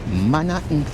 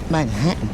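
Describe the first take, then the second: First: It is said with a Jamaican accent. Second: It is said with an American accent. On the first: "In a Jamaican accent, I would say Manhattan" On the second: "An American accent, Manhattan"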